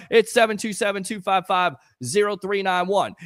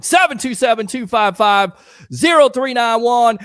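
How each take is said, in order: First: Said in the usual way. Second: Phone number called out loud and punchy; announcer-style shout of the digits. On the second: Real, not acted. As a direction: belt the number out to viewers. Calling out phone number loudly.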